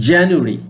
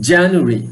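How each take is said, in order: The two takes are said the same way.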